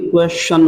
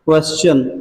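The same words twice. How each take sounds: First: The middle consonant is an 'sh' sound. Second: The middle consonant is a plain 's' sound. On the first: The speaker calls it right. "लेकिन ये क्वेश्चन होता है" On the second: The speaker calls it wrong. "लोग आज से क्वेश्चन बोलते हैं"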